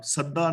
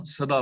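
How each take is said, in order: First: ਸਦਾ with a doubled, held d; ਸਦਾ with a heavy geminated middle consonant; wrong reading ਸਦਾ. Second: ਸਦਾ with a single light d; ਸਦਾ, short first syllable and undoubled d; correct reading ਸਦਾ. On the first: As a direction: say ਸਦਾ as "sadda". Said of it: "ਸਦਾ ਨਹੀਂ ਬੋਲਣਾ". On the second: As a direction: say ਸਦਾ as "sa-daa". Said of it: "ਸਦਾ ਬੋਲਣਾ ਹੈ". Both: Shown as a demonstration.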